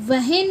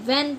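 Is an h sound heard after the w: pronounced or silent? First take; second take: pronounced; silent. First: An h sound is heard after the w. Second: No h sound is heard after the w. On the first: The speaker calls it wrong. "इसे हम वहन नहीं पढ़ते" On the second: The speaker calls it right. "वैन पढ़ते हैं"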